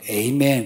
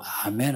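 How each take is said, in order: First: The word begins with an 'ay' vowel. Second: The word begins with an open 'ah' vowel. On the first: The speaker calls it wrong. "거기는 에이멘 그런 거예요" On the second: The speaker calls it right. "우리는 보통 아멘 하는데"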